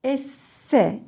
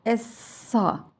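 First: ESSE with a light s and front "e"; thin s. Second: ESSA with a heavy s and dark "a"; thick s. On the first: Teacher asking children to hear the difference, thin s. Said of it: "ince S". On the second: Teacher asking children to hear the difference, thick s. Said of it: "kalın". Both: Shown as a demonstration.

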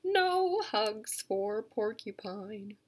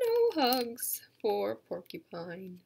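First: Slow, drawn-out title; slow title read. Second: Slow, even title; slow title read again. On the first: Educator reading a book title to kids, slowly. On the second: Educator repeating the title for the kids, slowly. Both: Shown as a demonstration. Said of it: "It's called".

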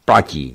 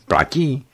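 First: Platí. said lower and louder with a falling tone; Platí. as a decisive louder answer; firm agreement. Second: Platí? asked with a high rising pitch; Platí? as a hopeful high question; asking question. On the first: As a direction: seal the deal, Platí. dropping firmly. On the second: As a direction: offer the deal as a question, Platí? lifted high. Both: Acted.

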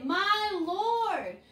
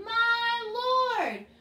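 First: Said in the usual way. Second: My Lord sung high and louder. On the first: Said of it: "So say". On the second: Shown as a demonstration. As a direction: sing it out on the repeat. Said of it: "One more time".

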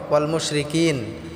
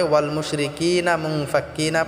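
First: ওয়াল মুশরিকিন slowed, last ন closed with no vowel; stopping on the final letter. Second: ওয়াল মুশরিকিনা মুনফাক্কিনা, the final ন voiced with না and flowing on; reading on without stopping. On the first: Teacher showing students how to stop on the verse, clipped final ন. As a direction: end ওয়াল মুশরিকিন on a silent ন, slowly. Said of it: "শেষের অক্ষরটি আমাদেরকে সাকিন করে পড়তে হবে". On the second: Teacher showing students the joined reading, না sounded through. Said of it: "আবার পড়ার সময়". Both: Shown as a demonstration.

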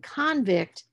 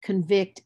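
First: CONVICT as the noun, CON-vict, slow; stress on first syllable. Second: CONVICT as the verb, con-VICT; stress on second syllable. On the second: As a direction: reduce the first vowel, hit VICT in convict. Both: Shown as a demonstration. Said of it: "the stress is gonna shift".

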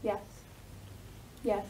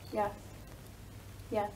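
Both takes have the same delivery.

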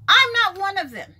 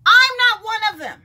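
First: I'm stressed again, still loud but settling; firm refusal repeated. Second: I'm punched high and loud, a flat refusal; firm loud refusal. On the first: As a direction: repeat it just as firmly. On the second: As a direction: say it loud and final, no debate. Emphatic refusal, repeated. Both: Real, not acted.

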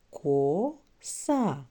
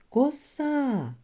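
First: «Коса» in two separate syllables, «Ко», pause, «са»; read syllable by syllable. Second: «коса» called out high as one word, long final «а»; called out for stress. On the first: Teacher reading the first word with children, «Коса» split into syllables. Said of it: "Читаємо перше слово". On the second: Teacher helping children find stress, «коса» called out, second syllable drawn out. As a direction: stretch and lift «са» in «коса». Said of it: "На який склад падає наголос?". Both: Shown as a demonstration.

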